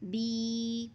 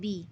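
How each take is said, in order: First: The vowel is stretched long. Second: The vowel is short, not stretched. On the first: "एक अलिफ की मिक़दार खींच कर पढ़ते हैं" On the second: "बा को बग़ैर खींचे पढ़ते हैं"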